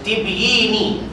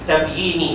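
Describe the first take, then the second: First: The first vowel is an 'i' sound. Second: The first vowel is an 'a' sound. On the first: "Boleh juga baca tibyini" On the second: "tapi tabyini lebih"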